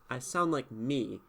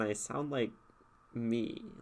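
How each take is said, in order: First: It is said in a confident, triumphant way. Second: It is said in a negative, dismissive way. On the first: The speaker is sure of their identity. "when I say it like that, like it's like I am confident in my identity" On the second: The speaker does not know or care what they are. "it could also be negative"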